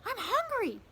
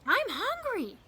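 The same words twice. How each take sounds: No difference in how they are said.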